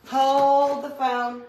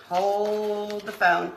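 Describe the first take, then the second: First: Higher, louder and slow; hammed-up stop-everything call; dramatic call. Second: Slow, drawn-out; lazy drawn-out phrase; slow drawl. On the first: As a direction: announce it like a halt order. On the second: Pretend. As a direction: stretch every word out. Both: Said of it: "repeats the phrase twice".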